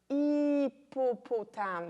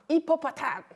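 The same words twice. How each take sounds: First: The word is drawn out slowly, syllable by syllable. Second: The word is said at a normal, quick pace. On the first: The child is led to stretch out the word. The speaker calls it right. "on peut étirer le mot" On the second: The child is simply told to repeat the correct form. The speaker calls it wrong. "Mais c'est pas ça qu'il faut faire"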